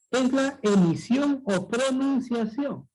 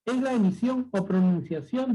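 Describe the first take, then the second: First: Slow, weighty "emisión o pronunciación"; emphatic repeat. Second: Said in the usual way. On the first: Shown as a demonstration. Teacher asks class to listen well, slow and emphatic. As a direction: stretch out "emisión" and "pronunciación" deliberately. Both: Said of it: "Pero escucha bien".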